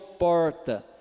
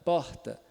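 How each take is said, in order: First: The R is curled back in the mouth. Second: The R is a soft breathy h sound. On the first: "o do paulista, que é do interior de São Paulo" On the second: "é o H do inglês, do hat, hotel ... bem suave"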